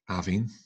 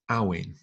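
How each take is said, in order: First: The middle consonant is a soft V sound. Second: The middle consonant is a clear W sound. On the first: "a softer V sound, almost an F" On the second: "where it's definitely a W you're hearing rather than the softer V F"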